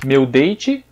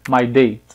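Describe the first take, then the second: First: "Meu date" with date as dei-tchi; Brazilian phrase. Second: "my date" with a faint T; English phrase. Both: Shown as a demonstration. Teacher contrasts the Portuguese and English phrases. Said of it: "diferença bem audível".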